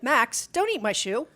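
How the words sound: It sounds weak, rising at the end.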